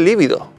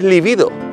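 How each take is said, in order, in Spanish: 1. El acento está en la primera sílaba. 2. El acento está en la segunda sílaba. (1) "Realmente no se dice líbido" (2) "Según la RAE es líbido"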